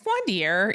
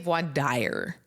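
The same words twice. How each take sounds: First: The second word does not end in 'ire'. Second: The second word ends in an English 'ire' sound. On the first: The speaker calls it right. "but it's not. So it's voir dire usually" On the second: The speaker calls it wrong. "a lot of people say voir dire... because that's what it looks like in English"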